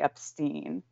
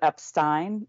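First: The last syllable rhymes with 'seen'. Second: The last syllable rhymes with 'fine'. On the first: "instead of the Epstein" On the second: "he definitely says the ein, the Epstein"

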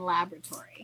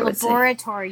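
First: It is said with an American pronunciation. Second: It is said with a British pronunciation. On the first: "You retorted with how you say it in American" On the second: "I just told you how you say it in English"

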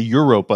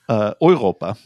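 First: The word is said with an English pronunciation. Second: The word is said with a German pronunciation. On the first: The speaker calls it wrong. "like specifically like the English pronunciation" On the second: The speaker calls it right. "How would you pronounce it in German?"

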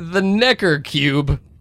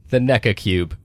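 First: It is said in the speaker's usual accent. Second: It is said in an English accent. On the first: "when I say it" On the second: "Try saying it in an English accent"

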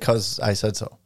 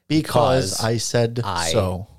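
First: Because is shortened and the words run together. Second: Because is said in full with gaps between words. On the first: This is how fluent speakers naturally say it. "Like you might just say" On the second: This is how beginning learners say it. "because they're just learning, they would say, ... There's like some spacing there"

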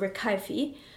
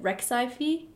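First: The middle consonant is a k sound. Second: The middle consonant is a ks sound. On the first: The speaker calls it right. "Isn't pronounced x, it's actually k" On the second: The speaker calls it wrong. "if someone pronounces it Rexaifi"

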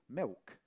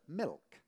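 First: The L is said like a W sound. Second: The L is said as a clear L. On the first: This is the speaker's original local accent. "I used to say milk, M-I-W-K" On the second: This is the speaker's careful, trained speech. "consciously force myself to say the word milk"

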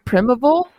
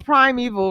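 First: The word is said in a way resembling 'medieval'. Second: The word is said with its standard pronunciation. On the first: The speaker calls it wrong. "my brain is like primeval" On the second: The speaker calls it right. "That's how it's said"

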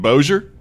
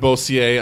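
First: The name is said without a French-style pronunciation. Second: The name is said with a French-style pronunciation. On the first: The speaker calls it right. "You mean Bossier?" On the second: The speaker calls it wrong. "It's not Bossier"

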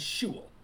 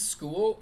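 First: The word begins with an sh sound. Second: The word begins with an sk sound.

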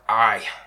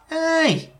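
First: The word sounds tired and weary. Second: The word sounds bright and eager. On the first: Admitting to having had a rough day. "did you have a rough day? And be like" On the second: Gladly accepting an offered drink. "when you offer them a drink, they're like"

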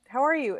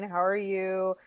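First: It is asked in a friendly way. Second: It is asked in an annoyed, dismissive way.

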